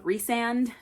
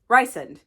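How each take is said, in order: First: The first syllable sounds like 'Reese'. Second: The first syllable sounds like 'Rice'. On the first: "I know that's how his name is supposed to be pronounced" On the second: "but I like Rysand better"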